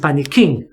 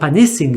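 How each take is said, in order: First: The consonant before -ing is a K sound. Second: The consonant before -ing is an S sound. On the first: The speaker calls it right. "it is panicking" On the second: The speaker calls it wrong. "it's not panicing"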